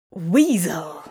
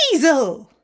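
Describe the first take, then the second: First: 1 muttered hiss. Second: High, loud shriek of alarm; startled guards yelp the word. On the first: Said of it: "Crowley hissed to himself". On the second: Guards spotting the weasel shriek it out loud. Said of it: "humans rounded the corner and shrieked". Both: A narrator's reading.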